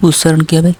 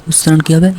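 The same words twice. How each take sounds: The two takes are said the same way.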